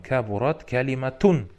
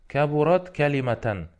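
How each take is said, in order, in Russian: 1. Второе слово заканчивается на гласный у, на -un. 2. Второе слово заканчивается на гласный а, на -an. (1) "должно же быть с домой" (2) "Почему с фатхой?"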